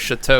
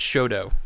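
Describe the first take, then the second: First: The word is said with French-style sounds. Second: The word is said with anglicized local sounds. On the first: This is the original foreign way to say it. The speaker calls it wrong. "anything that's pronounced like French" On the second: This is how locals say it. The speaker calls it right. "Englishified here in Saint Louis"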